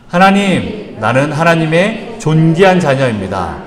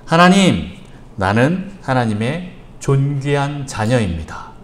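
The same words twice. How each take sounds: First: A firm, mildly raised declaration; shouted together. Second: Slow and even, spaced out for writing down; slow dictation. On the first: Pastor leads the congregation in shouting the declaration, firmly. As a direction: call it out with the congregation. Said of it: "우리 같이 외쳐봅니다". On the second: Pastor dictates the declaration to the congregation, slowly. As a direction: dictate it slowly so they can copy it. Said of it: "잘 적으십시오". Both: Shown as a demonstration.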